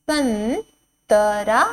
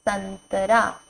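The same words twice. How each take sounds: First: संतरा drawn out slowly, rising end; slow teacher drill; slow sounding out. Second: Said in the usual way. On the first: Shown as a demonstration. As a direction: stretch संतरा syllable by syllable. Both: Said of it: "word drill".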